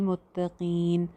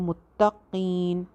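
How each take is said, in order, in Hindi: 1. 't' की आवाज़ नरम और हल्की है। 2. 't' की आवाज़ सख़्त और ज़ोरदार है।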